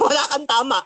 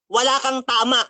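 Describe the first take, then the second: First: "Wala kang tama" echoed through a laugh; laughing repeat. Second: Said in the usual way. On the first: Shown as a demonstration. Preacher mocking his rival's words, laughing.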